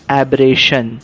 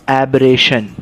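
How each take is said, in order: No difference in how they are said.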